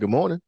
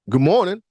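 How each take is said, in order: First: It sounds light, warm and smiling. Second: It sounds pointed, demanding and confrontational. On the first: A polite, welcoming greeting. "smile on face" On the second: Demanding a reply from someone ignoring you. "my second good morning was like, "Motherfucker, you don't hear me talking to you?""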